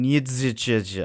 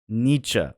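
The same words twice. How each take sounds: First: Every written letter is sounded out separately. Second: It is said smoothly, with some letters silent. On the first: The speaker calls it wrong. "I was trying to actually say the letters like an idiot" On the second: The speaker calls it right. "he says Nietzsche"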